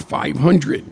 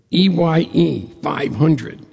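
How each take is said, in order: First: Said in the usual way. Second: "E Y E five hundred" spelled letter by letter, slowly. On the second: Shown as a demonstration. Spelling the name for listeners, each letter slow and clear.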